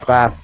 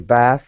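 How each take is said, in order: First: The name ends with a clear t sound. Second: The name ends without a t sound. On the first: The name is feminine. The speaker calls it right. "is the feminine form" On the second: The name is masculine. The speaker calls it wrong. "without if you would just say Bass, that's a, a masculine name"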